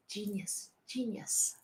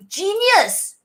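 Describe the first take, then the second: First: Hushed whisper, much softer; whispered praise. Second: High, slow gushing exclaim; excited praise. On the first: Fan whispering praise of the collab, hushed. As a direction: breathe the word in awe. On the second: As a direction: shout it out in delight. Loud first take. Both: Real, not acted.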